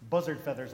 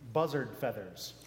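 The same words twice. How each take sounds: First: It is said fast. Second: It is said at normal speed.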